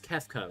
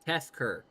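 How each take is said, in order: First: The name ends with a plain 'ka' sound. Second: The name ends with an r-colored 'ker' sound. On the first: This is the US name. "Kefka is the U S name" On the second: This is the original name. "Kefker is the original name that they originally had"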